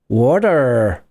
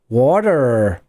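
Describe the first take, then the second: First: It is said with an American accent. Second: It is said with an American accent.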